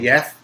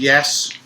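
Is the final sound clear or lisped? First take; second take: lisped; clear. First: The final s sound is lisped like th. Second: The final s sound is clear. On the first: "had a little bit of a lisp" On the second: "instead of saying yes"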